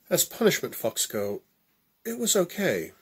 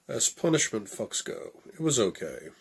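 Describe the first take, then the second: First: It is voiced in the woman's character voice. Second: It is voiced in the man's character voice.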